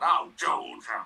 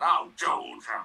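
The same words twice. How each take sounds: First: It is said in a Zippy impression. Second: It is said in a Zippy impression.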